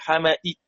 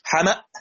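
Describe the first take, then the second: First: The final hamza is fully pronounced with faint kasra. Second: The final hamza becomes a long a vowel. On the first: "لازم نحقق الهمزة" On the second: "لما وقفت على الهمزة صارت همزة ساكنة وقبلها مفتوح يبقى تبدل"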